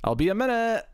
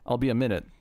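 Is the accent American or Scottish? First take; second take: Scottish; American. First: It is shouted in a Scottish accent. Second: It is said calmly in an American accent. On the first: The speaker calls it wrong. "see, I went Scottish" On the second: The speaker calls it right. "I can say I'll be a minute"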